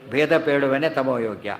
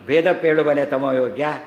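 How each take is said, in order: First: It is said as a plain statement. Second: It is said with a questioning tune. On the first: Whoever states the difference is fit for darkness. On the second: Would one who states the difference be fit for darkness?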